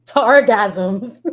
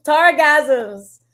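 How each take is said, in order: First: Said in the usual way. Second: Repeating the word through a laugh, pitch up. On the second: Real, not acted. Streamer repeating a chat pun, laughing. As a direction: crack up while saying the word again.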